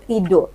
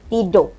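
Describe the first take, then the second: The two takes are said the same way.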